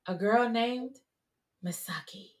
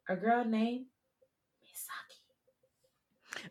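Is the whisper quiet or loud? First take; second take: loud; quiet. First: It is a louder whisper. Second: It is a very quiet whisper.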